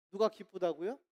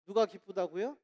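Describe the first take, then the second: No difference in how they are said.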